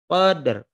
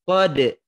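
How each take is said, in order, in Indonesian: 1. Lidah menyentuh r di akhir dengan ringan. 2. R di akhir dihilangkan sama sekali. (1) "dengan menyentuhkan ujung lidah kita ... ke huruf yang terakhir" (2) "Jadi tidak kode ... Ro-nya dihilangkan, tidak"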